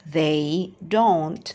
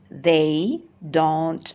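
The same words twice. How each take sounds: Both takes have the same delivery.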